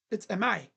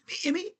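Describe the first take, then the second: First: Said in the usual way. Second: "Amai" as "IM-ee", high and questioning; puzzled, high, softer "Amai" ending in "mee"; imitated mispronunciation. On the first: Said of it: "I think his last name is Amai". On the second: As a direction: botch "Amai" with an "ee" ending, pitched up. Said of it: "hearing people try to say".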